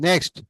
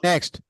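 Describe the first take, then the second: The two takes are said the same way.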